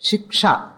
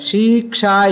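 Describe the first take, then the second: First: The first vowel is short. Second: The first vowel is long. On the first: This is the grammatically correct form. "the right form is Shiksha, short to Shakara" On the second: This is the form used in the Vedic text. "It is not long, but in the book, Shiksha is there"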